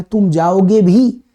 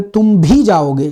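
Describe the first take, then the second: First: Slow, जाओगे भी leaned on, rising at भी; stress on जाओगे भी. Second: Slow, तुम भी pressed firmly, जाओगे light; stress on तुम भी. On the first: Teacher showing students stress falling on जाओगे. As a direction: put the weight on जाओगे. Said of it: "जाओगे पर जोर लगा रहा है". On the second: Teacher showing students stress falling on तुम. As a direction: make तुम भी carry the weight. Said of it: "तो भी ने तुम पर जोर मारा". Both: Shown as a demonstration.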